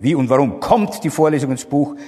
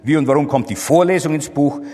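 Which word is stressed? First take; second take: warum; Vorlesung. First: The stress is on the word warum. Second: The stress is on the word Vorlesung. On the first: The question is about the reason. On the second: The question is about the lecture itself.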